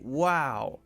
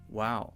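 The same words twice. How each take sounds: First: It is said with interested enthusiasm. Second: It is said flatly, without much emotion. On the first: The listener finds it interesting. "that might be really interested" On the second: The listener wants the speaker to keep talking. "that means I'm listening, keep going"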